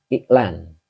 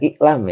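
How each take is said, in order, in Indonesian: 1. Kata ini diakhiri dengan bunyi n. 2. Kata ini diakhiri dengan bunyi m. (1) "Ini N ini" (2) "Bukan iklam ya"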